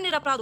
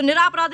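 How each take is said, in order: First: निरपराध with a short ra, dropping softer; softer short-vowelled निरपराध; correct form shown. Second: निरापराध with a long raa, niraa-praadh; lifted long aa in निरापराध; wrong form shown. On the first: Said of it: "निरपराध होता है". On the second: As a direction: stretch the raa in निरापराध, pitched up. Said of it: "निरापराध नहीं होता है". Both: Shown as a demonstration.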